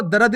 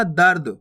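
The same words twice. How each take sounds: First: दर्द split as "da-rad"; wrong full "ra". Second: दर्द as one syllable falling low, "dard"; no vowel between r and d in दर्द; half "r" in दर्द. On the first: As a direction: say दर्द with a vowel after r, "darad". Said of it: "नहीं पढ़ना". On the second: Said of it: "आपको दर्द नहीं पढ़ना". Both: Shown as a demonstration.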